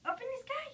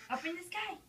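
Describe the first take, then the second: First: Much higher, sing-song cue. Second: Said in the usual way. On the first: Shown as a demonstration. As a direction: lift it high like baby talk.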